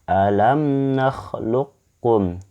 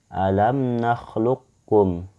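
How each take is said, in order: The two takes are said the same way.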